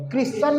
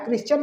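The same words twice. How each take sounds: First: क्रिश्चन as "kris-sun", no "ch"; silent T. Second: क्रिश्चियन with a "ch" in the middle; wrong "ch" sound. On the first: Teacher corrects the word for pupils, silent T. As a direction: say क्रिश्चन with only an S in the middle. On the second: Teacher shows pupils what not to say, "ch" sound. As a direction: say क्रिश्चियन as "kris-chun". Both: Shown as a demonstration. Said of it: "क्रिश्चियन नहीं".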